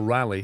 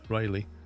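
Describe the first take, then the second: First: The first syllable sounds like 'rah'. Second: The first syllable sounds like 'ray'. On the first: "that is more of a rally" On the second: "that's how we say it"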